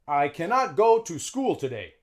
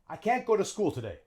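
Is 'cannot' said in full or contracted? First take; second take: full; contracted. First: The word cannot is said fully, sounding long. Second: The word is contracted and linked, sounding short. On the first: The speaker calls it wrong. "native English speakers wouldn't really say like that. It's too long" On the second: The speaker calls it right. "A native English speaker would say"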